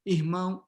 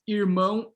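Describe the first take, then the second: First: The r is a breathy throat sound. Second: The r is made with the tongue curled back. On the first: This pronunciation is prestigious nationally. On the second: This pronunciation is stigmatized nationally.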